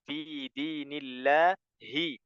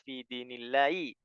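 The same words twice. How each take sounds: First: The final hi is said with a clear h. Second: The final h is dropped, ending in i. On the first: The speaker calls it right. "Jadi membacanya" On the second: The speaker calls it wrong. "bukan ... lebih enak i daripada hi"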